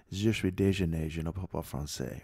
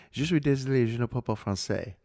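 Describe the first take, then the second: First: "déjeuner" said in place of "désolé"; butchered French phrase. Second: "désolé" said correctly in "Je suis désolé"; correct French phrase. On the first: Tourist in Paris butchering apology, "déjeuner" for "désolé". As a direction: retell the mistake, saying "déjeuner" for sorry. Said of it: "after butchering it". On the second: Man answering the taunt in French, "désolé" pronounced correctly. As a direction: say "désolé", the word for sorry, in careful French. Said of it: "I mastered that phrase". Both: Retold or imitated.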